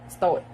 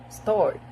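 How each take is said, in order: First: It is said in a British accent. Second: It is said in an American accent. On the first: "in British, we could uh, pronounce it as start" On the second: "In American"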